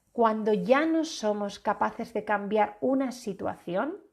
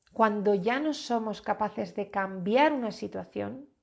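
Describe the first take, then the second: The two takes are said the same way.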